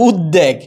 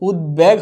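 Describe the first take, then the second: First: উদ্বেগ as "ud-deg", d doubled, no b; wrong pronunciation. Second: উদ্বেগ as "ud-beg", b sounded; correct pronunciation. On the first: Teacher warning students of a mistake, doubled-d mispronunciation. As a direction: swap the b in উদ্বেগ for a second d. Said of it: "ভুল হবে". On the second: Teacher stating that b is pronounced, clear-b demo. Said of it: "বয়ের উচ্চারণ হবে". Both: Shown as a demonstration.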